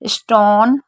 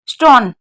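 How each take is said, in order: First: The O vowel is drawn out long. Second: The O vowel is clipped short and quick. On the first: The speaker calls it right. "धीरे बोला जा रहा है तो ई" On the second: The speaker calls it wrong. "इसको जल्दी कैसे बोलेंगे"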